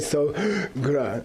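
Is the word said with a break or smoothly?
break. It has a pause in the middle. The speaker calls it wrong. "You don't say sogra"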